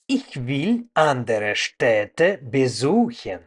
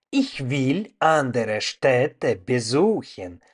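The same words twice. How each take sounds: The two takes are said the same way.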